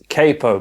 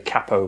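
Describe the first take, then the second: First: It is said with an American pronunciation. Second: It is said with a British pronunciation. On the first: "if you're an American you'd pronounce this capo" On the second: "I'm going to say capo because I'm British"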